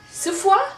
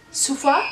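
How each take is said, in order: First: "Sephora?" tried high with a rising, questioning lilt; "Sephora?" guessed aloud, pitched up and asked; unsure Sephora. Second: "Sephora?" said closer to your own pitch, still a small question rise; a calmer retry of "Sephora?" with a light rise; second try Sephora. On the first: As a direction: test out "Sephora?" like you doubt how it's said. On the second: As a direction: try "Sephora?" again more plainly. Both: Real, not acted. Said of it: "my accent just".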